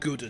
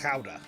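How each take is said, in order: First: The name is said the usual English way. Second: The name is said the Dutch way. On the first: The speaker calls it wrong. "apparently that is ass wrong" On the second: The speaker calls it right. "it is pronounced chowder"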